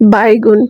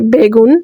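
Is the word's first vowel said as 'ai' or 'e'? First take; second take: ai; e. First: The word is said in the regional dialect form. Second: The word is said in the standard form. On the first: "বরিশাল্যা আঞ্চলিক ভাষায় বাইগুন" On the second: "এটার শুদ্ধ ভাষা হচ্ছে বেগুন"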